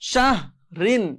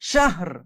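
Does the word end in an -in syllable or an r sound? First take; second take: -in syllable; r sound. First: The word ends with an -in syllable. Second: The word ends on a bare r sound.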